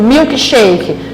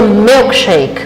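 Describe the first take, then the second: First: It is said with Brazilian Portuguese pronunciation. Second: It is said with English pronunciation. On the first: "da forma que a gente pronuncia no português" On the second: "No inglês seria milkshake"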